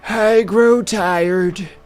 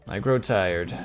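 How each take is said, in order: First: It is said in an old man voice. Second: It is said in a normal voice.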